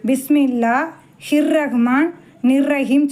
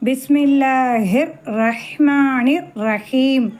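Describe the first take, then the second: First: The phrase is split into separate chunks. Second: The syllables flow together without breaks. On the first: The speaker calls it wrong. "எல்லோரும் என்ன சொல்லுவாங்க" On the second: The speaker calls it right. "அப்படி தான் சொல்லணும்"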